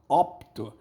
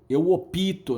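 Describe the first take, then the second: First: The p goes straight into the t. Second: An extra i vowel separates the p and t. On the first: The speaker calls it right. "A pronúncia correta é eu, eu opto" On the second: The speaker calls it wrong. "Muita gente fala eu opito"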